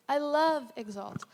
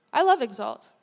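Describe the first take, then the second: First: Tender repeat. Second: Louder, punch the word love; emphatic declaration. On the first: Preacher repeats her love for the church: slow, tender, sincere. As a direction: let it land gently, slowly. Repeats the line softer and slower. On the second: Preacher tells the congregation she loves Exalt: a loud emphatic declaration. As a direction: say it out to the whole room. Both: Real, not acted.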